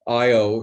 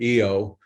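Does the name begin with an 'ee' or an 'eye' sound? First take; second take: eye; ee. First: The name begins with an 'eye' sound. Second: The name begins with an 'ee' sound.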